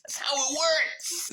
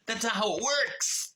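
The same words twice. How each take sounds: First: Higher, slow put-on voice, mocking; sarcastic mock voice. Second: Said in the usual way. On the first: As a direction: parrot the book's logic with scorn. Sarcastic echo of the book. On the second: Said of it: "correcting the story".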